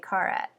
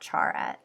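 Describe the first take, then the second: First: The word begins with a k sound. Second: The word begins with a ch sound. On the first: "I say Carat" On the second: "not Charat"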